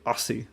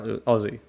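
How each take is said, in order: First: The middle consonant is a hissing S sound. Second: The middle consonant is a buzzing Z sound. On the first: The speaker calls it wrong. "the way it's spelled formally, A U S S I E, it encouraged people to say Aussie" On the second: The speaker calls it right. "like Ozzy Osbourne"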